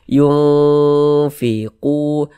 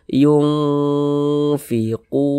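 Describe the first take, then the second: Both takes have the same delivery.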